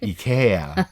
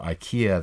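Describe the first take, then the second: First: It is said with a Swedish pronunciation. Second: It is said with a non-Swedish, foreign pronunciation. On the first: "unless they're from Sweden, and then they'll say IKEA" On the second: "that's how they're most foreigners are going to say it"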